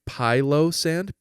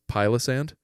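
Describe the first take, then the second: First: The name is said at a normal pace. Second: The name is said quickly, run together.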